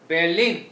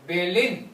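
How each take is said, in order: No difference in how they are said.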